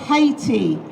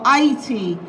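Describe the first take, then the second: First: The name is said the common English way. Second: The name is said the local way. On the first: The speaker calls it wrong. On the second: The speaker calls it right.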